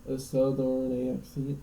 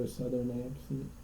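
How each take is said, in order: First: Slow, badly faked southern "southern accent". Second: Said in the usual way. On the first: Shown as a demonstration. Admitting they can't do it, half-hearted southern accent. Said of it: "can't even do a southern accent". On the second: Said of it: "I can't even do".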